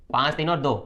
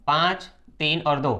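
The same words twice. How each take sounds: First: Said in the usual way. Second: Slow, deliberate listing of पाँच, तीन और दो; slow emphasis. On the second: Shown as a demonstration. Teacher showing students the reason, slow and deliberate. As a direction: spell out each number slowly for the class. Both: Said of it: "तो आपको कारण बताना है".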